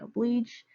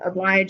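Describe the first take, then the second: First: It is said with a long E vowel. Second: It is said with the usual vowel.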